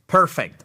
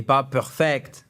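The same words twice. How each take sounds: First: "perfect" punched loud on its first syllable, PER-fect; stress first syllable. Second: "perfect" stressed on its last syllable, per-FECT, said slowly; "perfect" mis-stressed at the end, slow; wrong stress. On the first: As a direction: hit the PER of "perfect" hard. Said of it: "Accent tonique sur la première syllabe". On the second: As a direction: say "perfect" the French way, weight at the end. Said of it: "Et pas perfect". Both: Shown as a demonstration.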